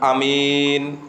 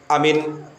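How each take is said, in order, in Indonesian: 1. Hanya vokal kedua yang dibaca panjang. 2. Kedua vokal dibaca pendek. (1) "Kalau mimnya tok yang dibaca panjang, alifnya nggak dibaca panjang" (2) "alifnya sama mimnya itu dibaca pendek"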